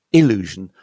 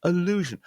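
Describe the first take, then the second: First: "illusion" opening on a clear short I, loud; clear I sound. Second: "Allusion" as uh-LOO-zhun, high then falling; schwa at start. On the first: Teacher contrasts the second word, "illusion" with clear I. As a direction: start "illusion" with ih, not uh. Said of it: "vowel sound is a clear I sound". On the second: Teacher models the first word, "Allusion" starting with schwa. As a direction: open "Allusion" on a neutral uh. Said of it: "with a schwa sound". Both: Shown as a demonstration.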